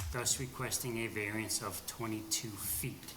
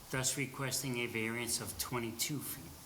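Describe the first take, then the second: The two takes are said the same way.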